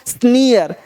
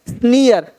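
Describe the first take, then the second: The two takes are said the same way.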